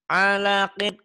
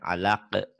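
First: The word ends with an -in ending. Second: The word stops on a bouncing final q. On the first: The word is read in full without stopping. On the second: The reading stops at this word.

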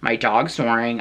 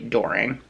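First: Each word is said clearly and separately. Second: The words are squeezed into one short word. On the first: "instead of saying my dog snoring" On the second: "I just mush them together"

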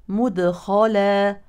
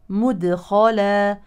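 Both takes have the same delivery.

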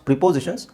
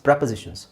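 First: The first syllable sounds like 'pri'. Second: The first syllable sounds like 'pre'. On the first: The speaker calls it wrong. "ತುಂಬ ಜನ ಇದನ್ನು wrong pronounce ಮಾಡ್ತಾರೆ" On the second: The speaker calls it right. "It's ಪ್ರೆಪೊಸಿಷನ್ಸ್"

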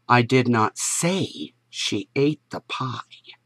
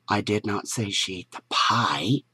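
First: The stress is on "say". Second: The stress is on "pie".

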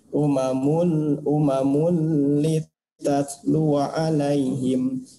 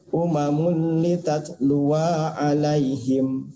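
First: The wa vowel is held short. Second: The wa vowel is drawn out long. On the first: The speaker calls it right. "maka ini tetap dibacanya pendek" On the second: The speaker calls it wrong. "tidak boleh"

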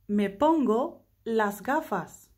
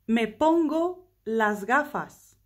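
The two takes are said the same way.

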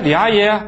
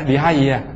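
First: The name is called out sharply and impatiently. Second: The name is called out gently and calmly. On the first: The caller is losing patience. The speaker calls it wrong. "第二声就不" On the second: The caller is still patient. The speaker calls it right. "第一声还是像个学佛的"

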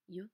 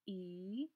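First: The letter is sounded as a 'y' consonant. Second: The letter is sounded as an 'ee' vowel. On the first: The speaker calls it right. "Let's start with the y sound first" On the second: The speaker calls it wrong. "Let's try with the E sound now"

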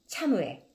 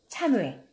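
No difference in how they are said.

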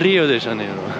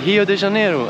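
First: The R at the start is a clear R sound. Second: The R at the start sounds like an H. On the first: This is not how locals say it. The speaker calls it wrong. "and not" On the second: This is how locals say it. The speaker calls it right. "They're saying H for R. So they say"

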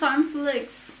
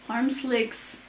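First: The second part starts with an f sound. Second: The second part starts with an s sound. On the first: The speaker calls it wrong. "Harmflix diye okuyasım geliyor" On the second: The speaker calls it right. "ama Slix"

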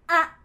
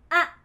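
The two takes are said the same way.

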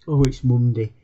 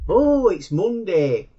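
First: It is said in a gloomy, reluctant tone. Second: It is said in a happy, upbeat tone.

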